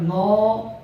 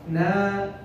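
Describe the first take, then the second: First: The syllable is said heavy and rounded. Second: The syllable is said light and thin. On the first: The speaker calls it wrong. "not no" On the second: The speaker calls it right. "make the Noon light"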